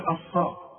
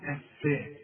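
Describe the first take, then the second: First: The f sound is heavy and thick. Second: The f sound is light and thin. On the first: The speaker calls it wrong. "ما نقولش الصاء" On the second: The speaker calls it right. "هنقول الفاء"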